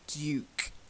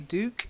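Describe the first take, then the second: First: It is said with a British pronunciation. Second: It is said with an American pronunciation. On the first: "I'll give you the British pronunciation. It's Duke" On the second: "I'm sure Americans say Duke"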